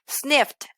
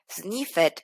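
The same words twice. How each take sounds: First: The ending is a short T sound. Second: The ending is pronounced as a separate syllable. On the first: The speaker calls it right. "voy a decir" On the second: The speaker calls it wrong. "En lugar de decir"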